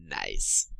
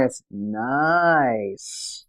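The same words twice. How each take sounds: First: A very low, flat "Nice." with a falling end; deadpan Alice "Nice". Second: "It's nice." slightly lower, with the "nice" drawn out and falling; corrected deadpan "nice". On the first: Retold or imitated. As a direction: drop the word "Nice." far down and keep it short. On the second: Shown as a demonstration. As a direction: stretch "nice." slowly down to a dry finish. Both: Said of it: "No, no, you got it wrong".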